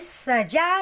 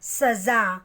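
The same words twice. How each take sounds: First: The middle consonant is a plain 'j' sound. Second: The middle consonant is a buzzing 'z' sound. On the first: The speaker calls it wrong. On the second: The speaker calls it right.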